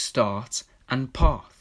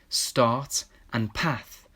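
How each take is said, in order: First: The words are said in a posh London accent. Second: The words are said in a Birmingham accent. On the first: The two words rhyme. "in a London or posh accent when pronounced start and path" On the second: The two words do not rhyme. "doesn't rhyme in my Birmingham accent"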